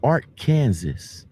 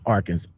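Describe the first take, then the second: First: The word ends like the word Kansas. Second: The word ends with a saw sound. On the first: It is read the way it is spelled. "if you look at it and you break it down, it's" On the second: This is how the name is really said. "which is pronounced"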